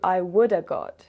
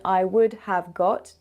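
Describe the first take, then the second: First: Would have is squeezed into one short woulda. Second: Each word of would have is said fully. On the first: "[name] shortens it even more to I woulda got" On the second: "usually we shorten I would have got"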